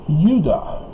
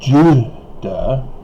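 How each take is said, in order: First: The word begins with a Y sound. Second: The word begins with a J sound. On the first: The speaker calls it right. "it's Judah. It's a Y from Hebrew with the yod" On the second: The speaker calls it wrong. "it's not Judah"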